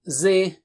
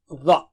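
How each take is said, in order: First: It starts with a plain, light z sound. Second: It starts with a thick, heavy th sound. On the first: The speaker calls it wrong. "Don't say it like Zoe or ze" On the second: The speaker calls it right. "It is the"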